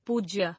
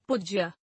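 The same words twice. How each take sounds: First: Said in the usual way. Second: पूज्य with short u, "pujjya"; mispronounced. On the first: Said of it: "शुद्ध". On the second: Shown as a demonstration. Teacher showing a u error, mispronounced with short u. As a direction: clip the oo of पूज्य. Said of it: "अनशुद्ध".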